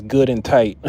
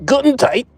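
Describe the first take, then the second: First: Said in the usual way. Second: Very high, loud German accent on Good and tight; hammed-up German accent, much higher and louder; mock German accent. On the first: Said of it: "what I'm saying is good and tight". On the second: Shown as a demonstration. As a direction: shout it like a comic German. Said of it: "with a German accent".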